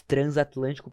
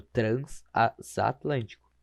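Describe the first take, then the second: First: Said in the usual way. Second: Slow "transatlântico", broken up as trans, a, satlântico; prefix separating. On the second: Shown as a demonstration. Teacher showing the prefix separates, "transatlântico" slowly broken up. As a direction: say "transatlântico" haltingly in pieces after trans. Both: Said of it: "acaba separando".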